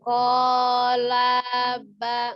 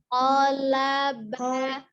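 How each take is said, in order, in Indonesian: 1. Salah satu vokal dalam kata itu dipanjangkan. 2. Vokal-vokal dalam kata itu diucapkan pendek. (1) "jangan dipanjangkan, jangan kolaba" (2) "hanya pendekkan"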